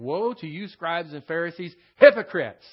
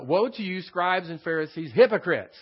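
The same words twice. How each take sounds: First: Preacher thundering Jesus' woe at the Pharisees; shouted denunciation. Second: Loud, rising to a shout on hypocrites; preacher demonstrating the full emphasis of the woe; emphatic woe. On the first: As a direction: build to a loud shout on hypocrites. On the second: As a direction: hit woe and hypocrites hard like Jesus denouncing. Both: Shown as a demonstration. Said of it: "you gotta put that kind of emphasis on it".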